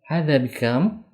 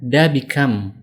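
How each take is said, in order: First: The first word is a full 'hadza'. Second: The first word is a short 'da'. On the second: "kalau dalam bahasa ilmiah Mesir, mereka mengatakan da bikam"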